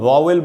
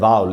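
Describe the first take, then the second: First: The second syllable has a full 'e' vowel. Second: The second syllable has a reduced, weak vowel. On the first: The speaker calls it wrong. "जिसको हम वावेल बोलते हैं" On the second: The speaker calls it right. "Actually उसका pronunciation होता है वावल"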